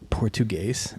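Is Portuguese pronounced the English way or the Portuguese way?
Portuguese. It is said with a Portuguese pronunciation. The speaker calls it right. "It's actually Portuguese"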